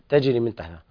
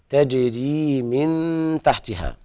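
First: The final vowel of tajri is cut short. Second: The final vowel of tajri is held long. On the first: The speaker calls it wrong. "فقد قرأت تجري من تحتها" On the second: The speaker calls it right. "الصواب إثبات الياء مدها حركتين"

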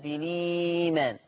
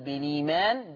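First: The lengthened vowel is held very long. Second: The lengthened vowel is held briefly.

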